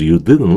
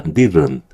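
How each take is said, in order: First: "didn't" spelled out as "di-deun-teu"; over-full Korean-style "didn't" ending in "teu"; full T, wrong take. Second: "didn't" as "di-run", t swallowed; "didn't" with a tapped middle and silent t; T hardly heard. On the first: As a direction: sound every consonant in "didn't", with a released t. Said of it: "You didn't가 아니라". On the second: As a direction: soften "didn't" and drop the final t. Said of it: "T 사운드가 거의 안 들려요". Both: Shown as a demonstration.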